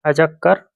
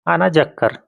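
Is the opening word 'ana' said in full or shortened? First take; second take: shortened; full. First: The pronoun is shortened to a single 'a'. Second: The pronoun 'ana' is said in full. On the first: The speaker calls it right. "सीधे शॉर्ट में बोल दीजिए" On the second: The speaker calls it wrong. "आ अजक्कर मतलब आना"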